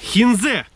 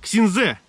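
First: The name begins with an H sound. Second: The name begins with a KS sound.

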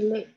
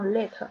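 First: The word ends on the vowel, no t. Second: The word ends with an audible t sound. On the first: The speaker calls it right. "就是累" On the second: The speaker calls it wrong. "也没有let"

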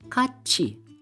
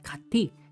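First: The middle consonant is a 'ch' sound. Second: The middle consonant is a plain 't' sound. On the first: The speaker calls it right. "Magiging kachi" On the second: The speaker calls it wrong. "This is not kati"

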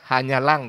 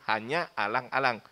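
First: The two a-vowels merge into one sound. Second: The two a-vowels are pronounced separately. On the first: The speaker calls it wrong. "kedengarannya hanya lang jadinya" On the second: The speaker calls it right. "Padahal hanya alang-alang"

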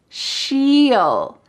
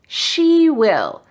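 First: It is said as one contracted word, 'she'll'. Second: It is said as two full words, 'she will'. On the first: "Let's take out W and I and make it" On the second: "What about these words?"

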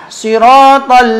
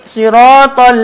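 No difference in how they are said.

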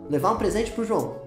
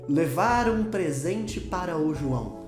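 First: "Para o" merges into a single short syllable. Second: Each syllable of "para o" is pronounced separately. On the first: The speaker calls it right. "você fala ... O para o vira pô" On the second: The speaker calls it wrong. "Você não fala que"

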